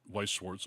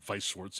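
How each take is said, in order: First: The name is said with an English accent. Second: The name is said with a German accent.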